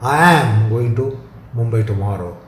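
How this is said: The word "am" carries the stress. The trip will happen no matter what. "shows the conviction and the definiteness"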